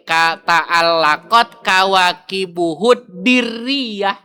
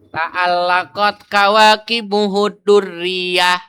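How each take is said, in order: First: The d in the last word takes an i vowel. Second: The d in the last word takes a u vowel. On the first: "Boleh tiga" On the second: "dengan dibaca tiga harokat dalnya"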